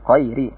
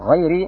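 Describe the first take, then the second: First: It begins with a hard stop like q. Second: It begins with a throaty, gargled fricative sound. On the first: The speaker calls it wrong. "tapi mengucapkan qayri. Tidak bisa membedakan antara qaf dengan al-ghain" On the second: The speaker calls it right. "tidak bisa mengucapkan qayri"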